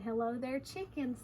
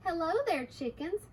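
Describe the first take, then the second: First: Said in the usual way. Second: Lightly lifted, sing-song hello; little girl's greeting. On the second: Acted. Little girl greets the two chickens, lightly voiced. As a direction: greet them with a pitch lift.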